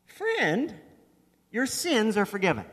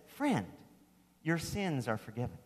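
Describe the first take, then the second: First: FRIEND lifted high in a wondering rise, then SINS stressed; higher ringing Friend, then a firm forgiven; amazed proclamation. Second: Softer, lower, understated Friend, your sins are forgiven; hushed gentle declaration; quiet retelling. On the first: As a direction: announce it with wonder in your voice. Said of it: "amazingly, not what I'd expect". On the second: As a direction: say it almost under your breath. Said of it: "Jesus, this master teacher ... says". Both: Shown as a demonstration.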